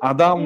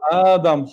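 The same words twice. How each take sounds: First: The first vowel is short, without lengthening. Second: The first vowel is drawn out long. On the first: It means something other than the name. The speaker calls it wrong. "адам нею" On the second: It means the name of the first man. The speaker calls it right. "адам хонад, тоғри мешавад"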